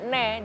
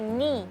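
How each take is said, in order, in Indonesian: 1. Vokal setelah n terdengar seperti 'e'. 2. Vokal setelah n terdengar seperti 'i'. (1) "enggak ne" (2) "dia ni"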